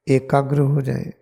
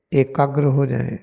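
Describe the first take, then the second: No difference in how they are said.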